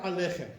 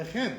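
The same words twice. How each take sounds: First: Aleichem as a-LEI-chem; wrong middle stress. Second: Aleichem as a-lei-CHEM; stress on final CHEM. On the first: Teacher warning of wrong way, Aleichem stressed mid-word. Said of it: "Wrong way". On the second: Teacher showing right way, Aleichem stressed at end. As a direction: land on the last syllable of Aleichem. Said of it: "That's the way you have to say it". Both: Shown as a demonstration.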